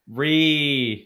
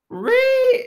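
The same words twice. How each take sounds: First: It is said in a normal voice. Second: It is said in a high-pitched voice.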